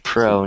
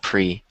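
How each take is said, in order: First: The prefix has an 'oh' vowel sound. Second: The prefix has an 'eh' vowel sound. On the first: The speaker calls it right. "make sure you say pro" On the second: The speaker calls it wrong. "not pre"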